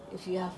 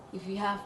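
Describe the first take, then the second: No difference in how they are said.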